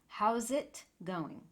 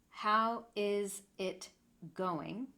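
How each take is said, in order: First: All the sounds run together. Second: Each word is said separately. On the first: "we really put all of the sounds together" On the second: "I'm saying "how is it going?" four words"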